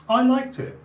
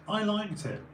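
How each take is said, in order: First: Loud high declaration; emphatic. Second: Said in the usual way. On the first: Real, not acted. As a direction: proudly admit it out loud.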